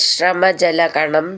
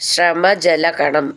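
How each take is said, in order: The two takes are said the same way.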